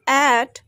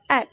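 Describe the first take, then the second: First: "at" with a long, full vowel; strong form. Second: "at" short and reduced; weak form. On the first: Teacher contrasting forms for learners, "at" full and stressed. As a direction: stretch the vowel of "at". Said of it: "Instead of at". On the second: Teacher contrasting forms for learners, "at" short and weak. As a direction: cut "at" to a brief syllable. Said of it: "we pronounced at". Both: Shown as a demonstration.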